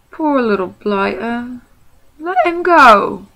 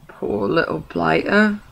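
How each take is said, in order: First: Slow, rising to a loud high plea; soften, then call to let him go; pitying troll. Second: Pitying troll. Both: Acted. William pities the hobbit.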